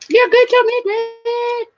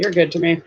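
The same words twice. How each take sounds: First: Very high, playful squeak; high-pitched goofy singsong; silly high voice. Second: Said in the usual way. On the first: Pretend. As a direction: repeat it way up high with a long held ending. Silly high repeat to a friend.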